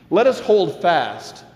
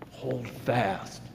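First: Slow, strong "Let us hold fast"; emphatic. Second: "hold fast" dropped to a near hush; quiet repeated hold fast; soft echo. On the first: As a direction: declare "hold fast" firmly and slowly. Repeated phrase set against soft echo. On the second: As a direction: echo it back softly, inward. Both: Acted.

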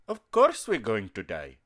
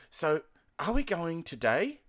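First: Imitated Indian accent, lower-pitched; mock Indian-English answer, pitched down; uncle's Indian accent. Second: Put-on asking in an Australian accent, higher-pitched; broad Australian "today" that sounds like "to die". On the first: Uncle answering a relative's question, in Indian accent. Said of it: "start to speak like that". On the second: Asking an uncle about the day's plans, in Australian accent. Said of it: "can't understand my Australian accent".

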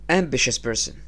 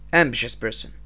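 The two takes are said the same way.

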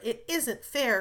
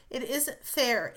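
First: "isn't" punched, falling at the end; stress on isn't. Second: Slow, with "fair" stressed and falling. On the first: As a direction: hit "isn't" hard. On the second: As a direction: lean hard on "fair", slowly. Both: A narrator's reading. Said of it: "cried Jo passionately".

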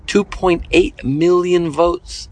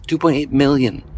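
First: "two point eight million votes" drawn out slowly, each word weighed; slow stressed. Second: Said in the usual way. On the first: Real, not acted. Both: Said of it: "emphasis repeat".

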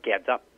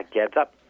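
First: "geds up" said carefully as a foreign word, both syllables clear; Chinese dialect word. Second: "geds up" repeated louder, punched for emphasis; repeated foreign word. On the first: To the host, naming the old Chinese fish sauce, said carefully. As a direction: introduce "geds up" as the Hokkien name, even and clear. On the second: After the host echoes it, repeating the name louder. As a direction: say "geds up" again louder so it sticks. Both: Shown as a demonstration. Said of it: "called in this local Chinese dialect".

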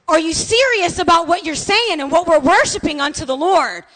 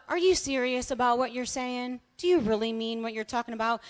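First: Louder, higher impassioned challenge; shouting like madman. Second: Soft, understated question; mild asking. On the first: Pastor challenging the worshippers that morning, impassioned shout. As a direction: belt out the question with urgency. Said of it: "he was shouting it like a madman". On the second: How the pastor's question began during worship, mildly asked. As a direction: ask it quietly, without force. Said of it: "it had turned from just a". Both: Retold or imitated.

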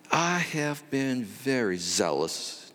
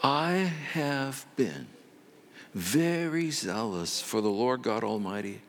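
First: Slow "I have been" with the "I" leaned on; Elijah's first slow try at his complaint; weighty I. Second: Slow, weighty "I have been" stretched out; Elijah's rehearsed complaint, slow and self-important; drawn-out I. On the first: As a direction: open with a heavy "I". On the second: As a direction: lean hard and slow on the "I". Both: Acted. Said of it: "Notice how that sentence started off".

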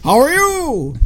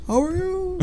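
First: High, drawn-out holler; calling out. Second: Soft, high echo; imitated echo. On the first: Retold or imitated. Fan acts out the Grinch questioning his echo, hollering. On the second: Fan plays the echo parroting him, soft and high. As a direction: repeat it as a faraway echo, high-pitched.

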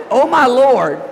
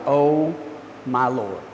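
First: Loud lifted praise cry. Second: Low exasperated groan of a phrase; frustrated sigh. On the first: Preacher shows the congregation the praise meaning, loud and bright. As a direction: lift it up as worship. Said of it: "is supposed to be praised". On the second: Preacher acting fed up with someone, low weary oh my Lord. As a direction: sink the voice, fed up. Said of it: "you're frustrated with somebody". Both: Shown as a demonstration.

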